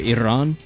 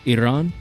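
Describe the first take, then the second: Both takes have the same delivery.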